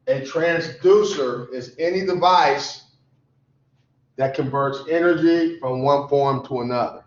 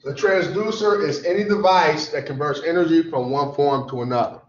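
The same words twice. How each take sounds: First: Measured, phrase by phrase for note-taking; slow dictation. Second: Said in the usual way. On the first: Shown as a demonstration. Teacher repeats a definition so students can write it down, slow dictation. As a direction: say it slowly, pausing after "device". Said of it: "I'm gonna say it slowly". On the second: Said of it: "say it a couple times".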